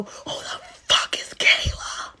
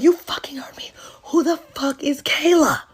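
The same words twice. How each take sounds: First: Slow, strained whisper-yell; whispered mock scream. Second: High, voiced mock yell; mock angry demand. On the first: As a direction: act out screaming under your breath. Acted confrontation of cheating boyfriend. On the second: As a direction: act out an indignant confrontation. Acted confrontation, repeats the question.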